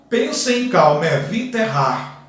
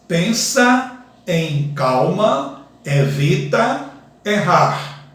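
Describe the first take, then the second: First: Neighbouring vowels are joined, merging syllables together. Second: Each syllable is said separately, without joining vowels. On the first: It counts as seven poetic sounds. "Pronunciando, ... Sete sons poéticos. Note a elisão" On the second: It counts as ten grammatical syllables. "Se eu pronunciar ele separadamente, como fiz, fica com bastante sons"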